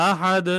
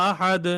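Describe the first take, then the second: The two takes are said the same way.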